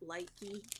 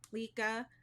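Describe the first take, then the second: First: The name ends with an 'ee' sound. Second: The name ends with an 'ah' sound. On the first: The speaker calls it wrong. "everyone mispronounces it Likey" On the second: The speaker calls it right. "I believe it's Lika"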